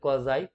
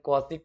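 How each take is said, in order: First: It ends with a z sound and ai. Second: It ends with an s sound and ee. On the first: "क्वाज़ाई concave and क्वाज़ाई convex हम लोग इसको बोलते हैं" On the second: "इसको हम लोग क्वासी convex and क्वासी concave भी बोल सकते हैं"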